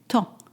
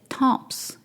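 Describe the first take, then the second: First: The final consonants are silent. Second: The final consonants are pronounced as spelled. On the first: The speaker calls it right. "you say temps" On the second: The speaker calls it wrong. "you would see that temps is spelled temps. You do not say temps"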